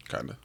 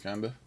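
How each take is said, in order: First: Lower, softer flat echo of kinda; low deadpan repeat. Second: Said in the usual way. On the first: Shown as a demonstration. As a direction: drop it low and dry.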